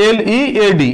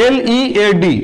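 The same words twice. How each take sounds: The two takes are said the same way.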